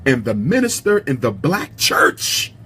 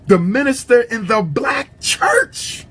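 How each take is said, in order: First: Said in the usual way. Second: Higher, slow and drawn out, every word leaned on; an impassioned preacher's wail on minister; emphatic slow cry. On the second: Shown as a demonstration. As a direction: cry the line out as if pleading. Repeating the quote for emphasis.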